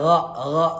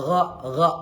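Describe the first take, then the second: The two takes are said the same way.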